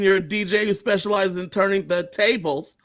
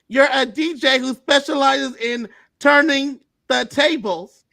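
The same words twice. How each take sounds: First: It is said in an ordinary speaking voice. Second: It is said in a put-on character voice.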